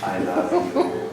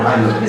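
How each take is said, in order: First: The phrase is said slowly. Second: The phrase is said quickly. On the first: The speaker calls it right. "And then you go slowly" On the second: The speaker calls it wrong. "This is too fast"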